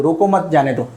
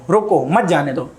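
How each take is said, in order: First: "रोको मत जाने दो" grouped to mean don't stop them; comma pause shown. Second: "रोको", then "मत जाने दो" together, meaning stop them; comma pause shown. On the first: Teacher showing students how a comma changes meaning, demonstrated phrasing. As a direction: say "रोको मत" as one unit, then "जाने दो". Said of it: "अगर मैं ये comma यहाँ लगा दूँ". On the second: Teacher moving the comma for students, demonstrated phrasing. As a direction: break after "रोको", run "मत जाने दो" as one unit. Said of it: "यहाँ पे लगा दूँ". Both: Shown as a demonstration.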